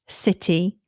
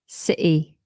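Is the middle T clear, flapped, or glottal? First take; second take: clear; glottal. First: The middle T is a clear T. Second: The middle T is a glottal stop. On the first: "you're more likely to hear the T" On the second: "or like a glottal T"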